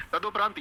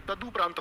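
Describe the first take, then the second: First: तदुपरांत mispronounced as "tado-praant"; wrong o vowel. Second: तदुपरांत said as "tadu-praant"; correct u vowel. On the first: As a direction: put an o after द in तदुपरांत. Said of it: "ये भी गलत हो गया". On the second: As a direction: put a u after द in तदुपरांत. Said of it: "क्या होता है?". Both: Shown as a demonstration.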